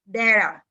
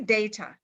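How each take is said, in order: First: It is said with an American pronunciation. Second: It is said with a British pronunciation. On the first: "But if you go to America, you say data" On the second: "If you go to England, they will say data"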